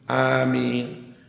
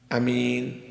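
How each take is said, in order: First: The first vowel is long. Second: The first vowel is short. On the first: "dibaca panjang" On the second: "dibaca pendek"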